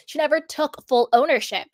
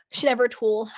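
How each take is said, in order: First: Said in the usual way. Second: "tool-" said for took, cut off mid-word; accidental "tool-" instead of took; slip of the tongue. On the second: Real, not acted. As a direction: trip on took, saying "tool-" and stopping. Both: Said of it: "sorry, it's a typo".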